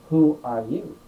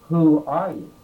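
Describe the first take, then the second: No difference in how they are said.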